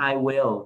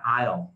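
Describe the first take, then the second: First: Both words are said separately in full. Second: The words are merged into one short syllable. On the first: "thay vì mình nói I will" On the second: "mình nói I'll"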